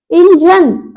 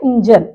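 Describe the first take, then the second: First: इंजन forceful, with a long ee, pitched up; जोर लगा के. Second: इंजन short and unforced, short first i; शुद्ध उच्चारण. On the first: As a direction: push hard on the start of इंजन. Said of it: "जोर से बोलते हैं जोर लगा के". (इंजन को जोर से "ईंजन") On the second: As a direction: keep the opening of इंजन quick. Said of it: "ये शुद्ध क्या होता है". (इंजन में "इ" छोटी) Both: Shown as a demonstration.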